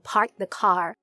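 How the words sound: It is American, with the R sounds pronounced.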